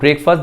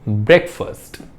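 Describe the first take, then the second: First: The first vowel is long. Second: The first vowel is short. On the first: The speaker calls it wrong. "That is not ब्रेकफास्ट" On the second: The speaker calls it right. "ब्रेक छोटा, ब्रेक बिल्कुल छोटा"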